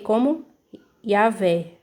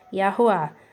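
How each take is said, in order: First: The middle consonant is a V sound. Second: The middle consonant is a W-like glide. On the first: The speaker calls it wrong. "a letra W, ela aqui está funcionando como a letra V de vaca" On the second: The speaker calls it right. "Mas a pronúncia é Yahuá"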